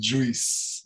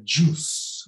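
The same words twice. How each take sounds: First: "juice" with an extra i, JOO-ees; mispronounced juice. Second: "juice" with one pure oo, JOOS; correct juice. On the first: Teacher showing learners their common error, "juice" as JOO-ees. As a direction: say "juice" wrongly as two vowels, oo-ee. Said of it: "nós queremos muito dizer juice". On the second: Teacher correcting learners, "juice" as JOOS. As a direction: say "juice" with only a long oo, no i. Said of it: "é só U ali". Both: Shown as a demonstration.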